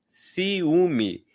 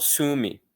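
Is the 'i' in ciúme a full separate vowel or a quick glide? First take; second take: full vowel; quick glide. First: The i is a full vowel in its own syllable. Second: The i is a quick glide joined to ú. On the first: The speaker calls it right. "Olha como o i, nesse caso, é pronunciado" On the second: The speaker calls it wrong. "A gente não fala ciúme"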